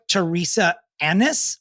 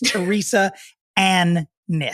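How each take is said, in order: First: The name parts are said quickly, run together. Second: The name parts are said separately and distinctly.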